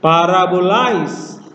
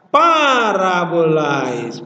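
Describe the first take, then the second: First: The pitch rises on 'i'. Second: The pitch does not rise on 'i'. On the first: The speaker calls it right. "jadi yang naik adalah i-nya" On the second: The speaker calls it wrong. "Bukan parabolais, bukan"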